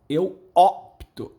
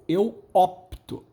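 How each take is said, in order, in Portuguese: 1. O p e o t são falados juntos, diretamente. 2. O p e o t são falados juntos, diretamente.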